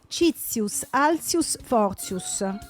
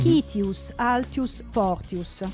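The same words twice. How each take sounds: First: It is read with the usual school Latin pronunciation. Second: It is read with reconstructed ancient Roman pronunciation. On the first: "lo leggo come si legge a scuola" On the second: "con la pronuncia che si dice sia fo- fosse quella dei, dei veri latini"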